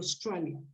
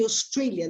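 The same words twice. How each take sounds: First: The stressed vowel sounds like 'eye'. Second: The stressed vowel sounds like 'ay'. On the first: This is how people from Australia say it. "they say Australia. ... they pronounce it like I" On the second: This is how people outside Australia say it. "people from Australia don't say Australia"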